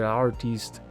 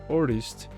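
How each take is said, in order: First: The word carries a strong foreign accent. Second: The word is said with less accent. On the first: The speaker calls it wrong. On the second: The speaker calls it right.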